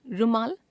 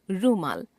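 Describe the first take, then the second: First: रुमाल with a short u, "rumaal"; wrong pronunciation. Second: Said in the usual way. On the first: Shown as a demonstration. Teacher showing a u-vowel error, रुमाल with short u. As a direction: keep the u of रुमाल short, rising at the end. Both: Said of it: "अशुद्ध".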